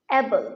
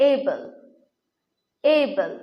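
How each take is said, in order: First: Able with a short open first vowel, 'ebel'; common mispronunciation. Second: Able with a long gliding start, 'EI-bl'; corrected pronunciation. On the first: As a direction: say Able as 'E-bel', without a glide. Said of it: "able উচ্চারণটি কিন্তু ভুল". (Able-এর ভুল উচ্চারণ, 'এবেল') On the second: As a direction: open able on a clear 'ei'. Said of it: "এর সঠিক উচ্চারণ হচ্ছে". (able-এর শুদ্ধ উচ্চারণ, 'এইবল') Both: Shown as a demonstration.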